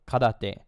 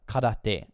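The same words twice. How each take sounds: First: It is said with a Japanese pronunciation. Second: The same.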